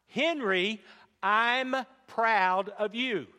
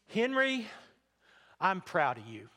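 First: It is said noticeably louder. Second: It is said at a normal, soft volume.

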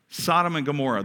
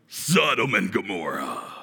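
First: It is said in a plain, ordinary voice. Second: It is said in a rough, guttural voice.

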